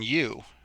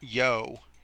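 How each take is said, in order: First: The vowel is not a long O sound. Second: The vowel is a long O sound. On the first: The speaker calls it right. "these ones do not make long vowels" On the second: The speaker calls it wrong. "it's not yo"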